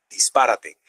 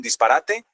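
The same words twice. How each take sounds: First: Dispárate stressed on PÁ, dis-PÁ-ra-te, pitched lower; stress on antepenultimate syllable. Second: Disparate stressed on RA, dis-pa-RA-te; stress on penultimate syllable. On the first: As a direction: hit PÁ in dispárate as a lower punchline. (dispárate con el acento en PÁ, más grave) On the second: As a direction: say disparate with the weight on RA. (disparate con el acento en RA) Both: Shown as a demonstration. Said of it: "Es un juego de palabras".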